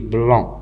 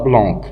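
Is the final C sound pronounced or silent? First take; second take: silent; pronounced. First: The final C is silent at the end. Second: The final C is sounded at the end. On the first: The speaker calls it right. "on dit blanc" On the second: The speaker calls it wrong. "On ne dit pas blanc"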